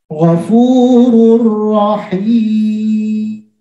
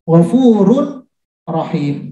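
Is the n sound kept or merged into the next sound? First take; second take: merged; kept. First: The n merges fully into the following r. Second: The n is pronounced clearly before the r. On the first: The speaker calls it right. "tapi dia harus masuk" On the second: The speaker calls it wrong. "Kalau secara tulisan"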